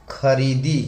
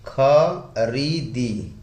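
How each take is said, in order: First: Said in the usual way. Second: "खरीदी" broken into slow खा, री, दी; syllable by syllable. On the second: Shown as a demonstration. Teacher dictating the example verb to viewers, slowly syllable by syllable. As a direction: stretch each syllable of "खरीदी" separately.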